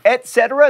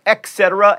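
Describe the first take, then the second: First: "Et cetera" as et SET-era, no K sound; correct et cetera. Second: "et cetera" said as ek SET-era; wrong et cetera. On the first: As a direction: say "Et cetera" with a clean T. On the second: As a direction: swap the T for a K in "et cetera". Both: Shown as a demonstration. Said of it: "not et cetera".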